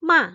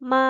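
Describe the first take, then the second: First: The syllable sounds sharp, like an angry voice. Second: The pitch stays level and is held long. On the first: "seperti kayak orang marah gitu" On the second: "nada pertama itu tulisannya cuman segaris saja, garis lurus"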